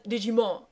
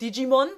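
First: The final N is weak and muted. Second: The final N is pronounced clearly. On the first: The speaker calls it right. "sondern Digimon. Also so, Mon" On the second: The speaker calls it wrong. "da sagen die ja auch nicht richtig so Digimon"

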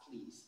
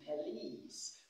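First: The first syllable's schwa is dropped entirely. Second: The first syllable's schwa is clearly heard. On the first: "the schwa sound can also be swallowed" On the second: "this word is police"

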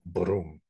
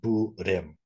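First: The word is said as one syllable. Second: The word is split into two syllables. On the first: This is the original Sanskrit form. "in Sanskrit it's originally one syllable, brum, with a syllabic r there" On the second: This is how Chinese and Korean speakers adapted it. "they make it bu rim"

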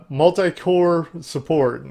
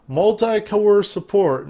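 First: It is said with a neutral accent. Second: It is said with a country accent. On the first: The speaker calls it right. "that doesn't sound as bad" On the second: The speaker calls it wrong. "I said that like a country person"

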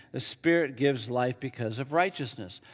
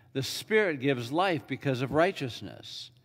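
The two takes are said the same way.

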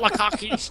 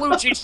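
First: The middle consonant is a harsh throat scrape. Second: The middle consonant is soft, without throat scraping. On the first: The speaker calls it wrong. "not Lachish. You're not hawking a loogie" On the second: The speaker calls it right. "It's Lachish"

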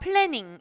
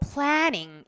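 First: It is said with a flat Korean-style vowel. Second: It is said with a wide, exaggerated American vowel. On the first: The speaker calls it wrong. "한국말처럼 planning 이렇게 읽지 마시고" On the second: The speaker calls it right. "planning 이렇게 나 미국 사람이다 이렇게 생각하시고 좀 오버해서"

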